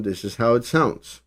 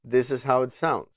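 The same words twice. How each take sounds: First: Rounder, bolder condenser mic sound; through condenser mic. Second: Quieter sound of a clip-on lavalier mic; through lavalier mic. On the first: Reviewer switching back to main mic for comparison, through condenser mic. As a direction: demo line on a studio condenser mic. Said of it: "Changing back to my condenser microphone". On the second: Reviewer testing a wireless lavalier for viewers, through lavalier mic. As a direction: demo line over a wireless lapel mic. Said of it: "the Toner wireless system". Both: Shown as a demonstration.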